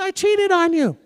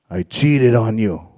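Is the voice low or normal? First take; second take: normal; low. First: It is said in a normal voice. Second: It is said in a very low voice. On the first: "She didn't say it like that, but she said" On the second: "real low"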